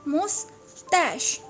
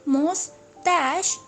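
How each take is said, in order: No difference in how they are said.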